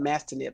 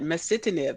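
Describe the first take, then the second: First: The word is said with three syllables. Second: The word is said with four syllables. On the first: The speaker calls it wrong. "I was missing that I and I was calling it mastinib" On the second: The speaker calls it right. "I finally did get that pronunciation right"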